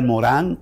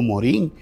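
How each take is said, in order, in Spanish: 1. El nombre mantiene su pronunciación extranjera original. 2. El nombre se pronuncia libremente, al estilo local.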